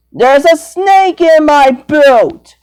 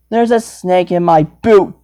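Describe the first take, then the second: First: Higher, slower, pushed imitation of the sheriff; mock cowboy drawl on the catchphrase; hammed-up Sheriff Woody impression. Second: Said in the usual way. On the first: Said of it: "I don't sound like that". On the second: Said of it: "You heard me".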